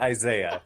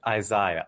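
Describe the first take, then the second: First: Isaiah is said with an American pronunciation. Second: Isaiah is said with a British pronunciation. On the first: "I'll do my best to say Isaiah" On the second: "I got my master's and my graduate studies at Oxford in England. So I pronounce it Isaiah"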